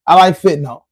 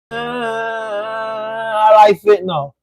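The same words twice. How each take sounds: First: Said in the usual way. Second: Slow, drawn-out mocking parody of the troll. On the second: Parroting the troll back at him in a slow mocking drawl. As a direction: drag it out like you're making fun of him. Mimicking the troll's own words.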